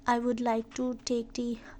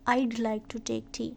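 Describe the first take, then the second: First: 'I would' is said as two full words. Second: 'I would' is shortened into one syllable.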